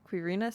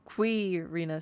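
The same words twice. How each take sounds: First: The stress is on the second syllable. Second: The stress is on the first syllable. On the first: "Stress on the second syllable" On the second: "Stress on the first syllable"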